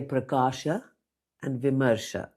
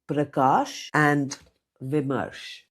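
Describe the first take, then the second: First: The names end with a final 'a' vowel. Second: The names end without a final vowel. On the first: The speaker calls it right. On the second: The speaker calls it wrong.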